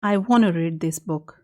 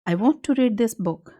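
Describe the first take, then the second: First: 'Want to' is said fast, blended into 'wanna'. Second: 'Want to' is said slowly as two full words.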